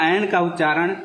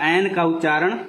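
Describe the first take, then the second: Both takes have the same delivery.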